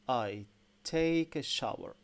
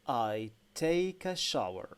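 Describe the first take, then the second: The two takes are said the same way.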